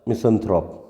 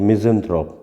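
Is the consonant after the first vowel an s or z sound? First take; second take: s; z. First: The middle consonant is a hissing s sound. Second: The middle consonant is a buzzing z sound. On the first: "दोनों ही pronunciation चलते हैं इसके" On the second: "दोनों ही pronunciation चलते हैं इसके"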